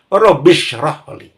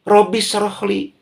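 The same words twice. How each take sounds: First: The s sound is a heavy, thick s. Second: The s sound is a plain, light s. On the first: It means 'expand my chest'. The speaker calls it right. "sin besar itu" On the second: It changes the meaning to 'ruin my chest'. The speaker calls it wrong. "sin biasa. Wah, itu sangat bahaya"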